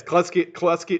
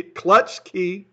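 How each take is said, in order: First: "Clutch Key" slurred as "Clus-key", the ch lost; tongue-tied slip. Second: "Clutch Key" with a crisp ch before the k; corrected pronunciation. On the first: Streamer bungles a viewer's name on greeting, tongue-tied slip. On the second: Streamer fixes his slip on a viewer's name, "Clutch Key" said with full ch. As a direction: land the "tch" in "Clutch Key", higher and louder. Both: Real, not acted.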